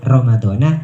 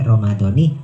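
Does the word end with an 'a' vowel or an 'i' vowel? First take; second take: a vowel; i vowel. First: The word ends with an 'a' vowel. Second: The word ends with an 'i' vowel. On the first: The noun is treated as not in a possessive construction. The speaker calls it wrong. "tidak lagi dibaca Ramadhana" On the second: The noun is possessed by the following word. The speaker calls it right. "tetapi Ramadhani karena mudhof"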